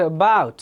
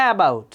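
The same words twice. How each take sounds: First: "about" with stress on the second syllable; natural word stress. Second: "about" as A-bout, full stressed first syllable; wrong word stress. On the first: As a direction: say "about" as a-BOUT, weak first vowel. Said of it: "স্ট্রেসের কারণে". (স্বাভাবিক স্ট্রেসে "about", শেষ সিলেবলে জোর) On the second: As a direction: lean on the A of "about", dropping after it. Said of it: "সুন্দর লাগতো?". (ভুল স্ট্রেসে "about", প্রথম সিলেবলে জোর) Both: Shown as a demonstration.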